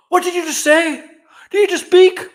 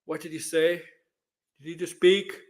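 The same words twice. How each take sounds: First: High, loud, overjoyed outburst; hammed-up loud, high-pitched astonishment; mock excited shock. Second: Calm, cool, collected; understated, unbothered acted questioning; Mando. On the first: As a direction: exclaim it like a thrilled parent. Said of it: "He won't be excited". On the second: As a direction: ask it as if it's no big deal. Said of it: "he's gonna be calm, cool, collected".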